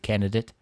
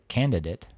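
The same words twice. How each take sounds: First: The middle D sound is dropped. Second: The middle D sound is clearly pronounced. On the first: The speaker calls it wrong. "I guess if you're saying that too fast, I could see candidate" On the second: The speaker calls it right. "but it's a candidate"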